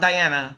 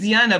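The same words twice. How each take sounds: First: The name is pronounced with English vowels. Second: The name is pronounced with Portuguese vowels. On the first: This is how she says her name when speaking English. "when I'm talking in English" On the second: This is how she says her own name normally. "I say my name is Diana"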